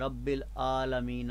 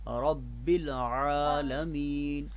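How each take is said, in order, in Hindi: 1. दूसरा लफ़्ज़ एक सादे हमज़ा से शुरू होता है। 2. दूसरा लफ़्ज़ हलक़ से निकली 'ain' आवाज़ से शुरू होता है। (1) "आपकी आवाज़ हमज़ा से ना मिल जाए। ... न पढ़ा जाए" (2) "बल्कि"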